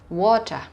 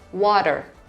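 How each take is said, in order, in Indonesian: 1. Aksen Inggris, bunyi R dihilangkan. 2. Aksen Amerika, bunyi R diucapkan. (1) "So in British English or in Australian English, kata water kemudian diucapkan water" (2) "Kamu masih bisa dengar that R sounds"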